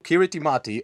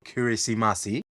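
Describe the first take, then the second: First: The ti syllables are said with a t sound. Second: The ti syllables are said with an s sound.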